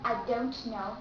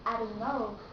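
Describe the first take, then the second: First: The T sound is clearly pronounced. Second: The T sound is cut off. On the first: "You don't have to say" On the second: "Just say"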